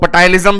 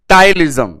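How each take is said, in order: First: The word starts with an audible p sound. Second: The word starts with t; no p sound. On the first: "पी silent ना करें तो वो पटाइलिज्म भी बोल सकते हैं देसी भाषा में" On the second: "पी silent है"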